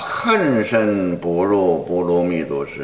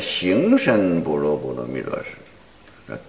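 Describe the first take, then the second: First: The first syllable begins with an h sound. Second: The first syllable begins with an x sound. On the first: The speaker calls it right. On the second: The speaker calls it wrong.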